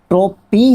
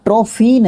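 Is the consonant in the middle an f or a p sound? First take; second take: p; f. First: The middle consonant is a p sound. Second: The middle consonant is an f sound. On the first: The speaker calls it right. "ट्रोपी है ना" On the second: The speaker calls it wrong. "ट्रोफी नहीं है"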